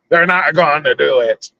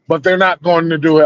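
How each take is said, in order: First: It is said in a Jack Sparrow pirate voice. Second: It is said in his normal voice.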